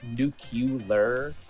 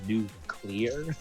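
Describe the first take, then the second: First: The middle sounds like 'cu-lar', with syllables swapped. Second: The middle sounds like 'clee-ar', the standard order. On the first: It imitates how someone else says the word. The speaker calls it wrong. "he pronounces it nuclear" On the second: It is the accepted way to say the word. The speaker calls it right. "but it's pronounced nuclear"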